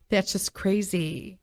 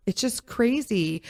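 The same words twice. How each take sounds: First: Slow words through a laugh. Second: Said in the usual way. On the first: Real, not acted. Laughing off tampons to the viewers, a slow laughing aside. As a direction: laugh it out in disbelief.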